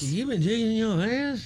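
It is said in a confused tone.

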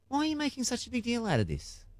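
It sounds curious and genuinely puzzled.

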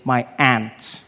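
It is said in an American accent, like 'ant'.

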